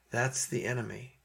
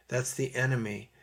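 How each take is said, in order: Both takes have the same delivery.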